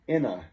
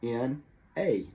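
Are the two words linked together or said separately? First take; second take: linked; separately. First: The n joins the next word as one unit. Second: The two words are said separately with a full vowel. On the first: The speaker calls it right. "the consonant at the end of the word jumps in front of the vowel" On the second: The speaker calls it wrong. "they'll pronounce this in a"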